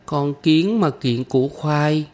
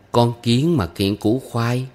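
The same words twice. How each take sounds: First: Put-on high, slow little girl's echo; small girl carefully reciting after her teacher; child repeating. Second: Slow adult recitation of a folk rhyme; measured teacher's model line; reciting to teach. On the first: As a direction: repeat the rhyme as a young pupil, pitched up. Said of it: "Kim Chi nhắc lại". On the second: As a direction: give the line slowly for a child to repeat. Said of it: "Mỗi câu tôi đọc lên". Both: A narrator's reading.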